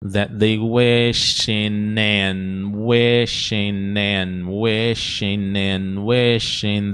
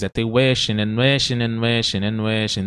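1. É falada devagar e com cuidado. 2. É falada em velocidade normal. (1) "Aí você treina devagarinho" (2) "Vamos no normal agora"

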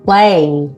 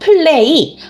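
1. 이 단어는 한 음절로 이어져서, 한 호흡에 발음합니다. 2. 이 단어는 세 개의 음절로 따로 나뉩니다. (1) "한 음절, 한 호흡에 연결하셔야 합니다" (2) "한국말처럼 3음절 떼고 계시면 안 됩니다"

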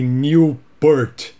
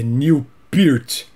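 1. O nome soa como a palavra única 'Newport'. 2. O nome soa como 'Neil' e depois 'Peert'.

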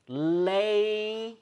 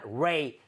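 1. 이 음절은 L 소리로 시작해요. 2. 이 음절은 R 소리로 시작해요. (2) "Not ray"

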